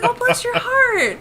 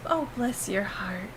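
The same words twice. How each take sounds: First: High, slow, sweetly meant bless your heart; sweet sincere. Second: Soft, slow "bless your heart" said as a quiet dig; knowing insult. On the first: Retelling her innocent reply to a viewer, sweet and sincere. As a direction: say "bless your heart" as a truly kind thank-you. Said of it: "I thought that would be a nice thing to say". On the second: Now knowing the Southern meaning, a quiet sly dig. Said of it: "fuck you" in Southern". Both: Retold or imitated.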